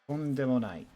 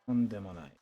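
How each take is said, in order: Both takes have the same delivery.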